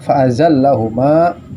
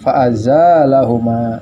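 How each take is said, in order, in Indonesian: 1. Vokal setelah z pendek. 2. Vokal setelah z panjang. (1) "Tapi umumnya kita bacanya fa'azallahuma" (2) "baca alifnya azanya panjang ya"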